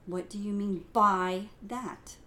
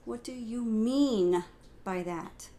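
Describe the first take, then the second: First: The emphasis falls on the word by. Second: The emphasis falls on the word mean.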